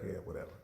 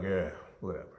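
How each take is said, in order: First: Low, very soft mock brush-off; father waving off his son again, low and very soft; dismissive dad. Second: Low, soft mock brush-off; father brushing off his son's boast, low and soft; dismissive dad. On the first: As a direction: barely say it, low and quiet. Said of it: "And Dad's like". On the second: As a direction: toss it away low and quiet. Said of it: "And he was like".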